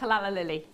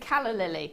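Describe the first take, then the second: First: The first word has three syllables. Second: The first word has two syllables. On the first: The speaker calls it wrong. "not a callala lily" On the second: The speaker calls it right. "it's a calla lily"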